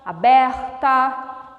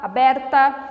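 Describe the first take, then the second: First: The R is said the Rio de Janeiro way. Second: The R is a short, quick sound. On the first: This is how Rio de Janeiro speaks. "No Rio de Janeiro, o R já é diferente" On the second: This is how other regions of Brazil speak. "um R um pouco mais rápido"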